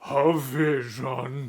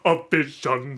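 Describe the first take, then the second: First: The words are smooth and connected. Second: The words are choppy and separated. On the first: "much more legato" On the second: "The first one was like"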